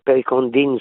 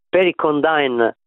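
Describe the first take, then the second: First: It is pronounced with French sounds. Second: It is pronounced with English sounds. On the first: "se lo diciamo in francese" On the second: "se lo diciamo all'inglese"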